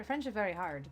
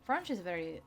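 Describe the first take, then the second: First: Said in the usual way. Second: FRENCH said as "Fronch", with an open "ah" vowel; "French" mispronounced as "Fronch" in a try at the accent; French-accented pronunciation. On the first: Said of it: "because that's not French". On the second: Shown as a demonstration. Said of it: "that's not French".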